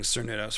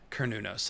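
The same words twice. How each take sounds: First: The name begins with a soft S sound. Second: The name begins with a hard K sound. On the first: The speaker calls it wrong. "I had a bad habit of saying Cernunnos for a long time" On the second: The speaker calls it right. "like kernel of corn"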